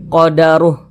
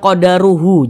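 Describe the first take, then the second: First: The word ends on a silent h, no vowel. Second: The word ends with an added final u vowel. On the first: The speaker calls it right. "kita baca qadaruh" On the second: The speaker calls it wrong. "Jangan dibaca qadaruhu"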